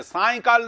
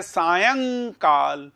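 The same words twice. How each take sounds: First: Higher-pitched सायंकाल said as साय-काल; wrong pronunciation. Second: Very slow सायंकाल, long nasal यं; correct pronunciation. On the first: Teacher rejects the wrong form, सायंकाल said as साय-काल. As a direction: run सायंकाल together, no nasal यं. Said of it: "सायंकाल नहीं है ये". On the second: Teacher models the right form, सायंकाल drawn out with nasal यं. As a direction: stretch सायंकाल as सा-यंग-काल. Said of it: "इसका उच्चारण ये है". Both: Shown as a demonstration.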